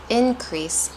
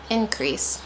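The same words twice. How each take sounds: First: Increase said IN-crease; stress on first syllable. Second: Increase said in-CREASE; stress on second syllable. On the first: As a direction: lean on IN in increase. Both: Shown as a demonstration. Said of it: "There's a difference between".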